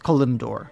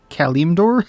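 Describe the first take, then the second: First: The first syllable does not sound like 'Cali'. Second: The first syllable sounds like 'Cali' in California. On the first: "I say it's Kalimdor" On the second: "like in as in California, Cali"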